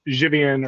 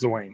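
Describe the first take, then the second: First: The name is said with a Polish pronunciation. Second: The name is said like Wayne with a Z. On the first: This is how the name is said in Poland. "is how you pronounce it in Polish" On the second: This is how the family says the name. "It's like Wayne with a Z"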